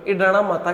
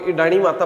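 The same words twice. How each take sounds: First: इडाणा ending in a long "aa"; correct name form. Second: इडाणी ending in a long "ee"; mistaken name form. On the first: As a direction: say इडाणा with a final -aa, not -ee. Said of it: "केवल और केवल इडाणा माता के नाम से". (इडाणा, अंत में लंबा "आ" के साथ) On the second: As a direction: say इडाणी with a final -ee, as people mistakenly do. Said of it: "लेकिन वो गलत है". (इडाणी, अंत में लंबी "ई" के साथ) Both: Shown as a demonstration.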